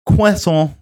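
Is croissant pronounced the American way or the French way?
French. It is pronounced with a French-style pronunciation. The speaker is ordering at a French bakery. "if I'm at a French bakery, I say croissant"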